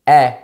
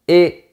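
First: The vowel is more open. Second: The vowel is closed. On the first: This is how it is said in Paris. "c'est un son un peu plus ouvert" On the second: This is how it is said in Toulouse. "à Toulouse, on dit"

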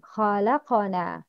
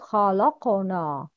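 First: The l sound is light and thin. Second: The l sound is heavy and full. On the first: The speaker calls it right. "لام is light, not heavy" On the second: The speaker calls it wrong. "not خلقنا"

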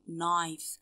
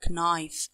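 First: The word begins with an N sound, K silent. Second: The word begins with a pronounced K sound. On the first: The speaker calls it right. "Aqul knife" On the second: The speaker calls it wrong. "Ma qulsh knife"

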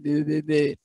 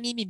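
First: It is said in a deep, natural voice. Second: It is said in a high, whiny voice.

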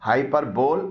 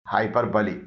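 First: The word ends with a 'bole' sound. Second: The word ends with a 'bly' sound. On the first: The speaker calls it wrong. "इसे हाइपरबोल नहीं बोलना चाहिए" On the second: The speaker calls it right. "बोल के बजाय बली बोलना चाहिए"

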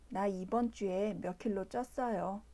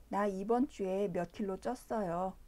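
No difference in how they are said.

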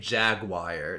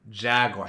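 First: The word ends with a 'wire' sound. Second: The word ends with a 'war' sound. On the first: The speaker calls it wrong. "Why does it say jaguar? There's no I-R-E in there" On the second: The speaker calls it right. "It's jaguar"

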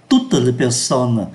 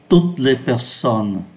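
First: The final es of toutes is pronounced. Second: The final es of toutes is silent. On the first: The speaker calls it wrong. "Người ta không đọc là" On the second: The speaker calls it right. "không phát âm ký tự ô S cuối"

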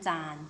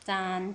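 First: The syllable is said on a low tone. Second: The syllable is said on a level mid tone.

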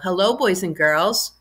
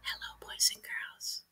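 First: It is said in a normal speaking voice. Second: It is said in a whisper.

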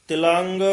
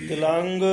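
The two takes are said the same way.

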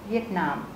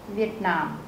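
First: It is said with German sounds and stress. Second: The same.

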